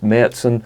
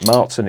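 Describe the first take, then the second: First: The first vowel is an umlauted 'ä' sound. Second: The first vowel is a plain 'a' sound. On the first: The speaker calls it right. "it's Märzen. The two umlauts over the A" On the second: The speaker calls it wrong. "I call it Marzen. It's not"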